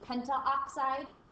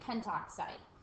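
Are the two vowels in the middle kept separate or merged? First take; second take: separate; merged. First: Both middle vowels are said separately. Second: The middle vowels merge into one sound. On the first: The speaker calls it wrong. "So instead of saying pentaoxide" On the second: The speaker calls it right. "we just say pentoxide"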